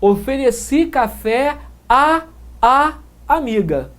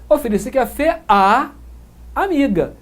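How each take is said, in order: First: Two separate 'a' sounds are pronounced. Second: The two 'a' sounds merge into one. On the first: The speaker calls it wrong. "o falante não vai pronunciar" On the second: The speaker calls it right. "Ele junta os dois sons, os dois ais"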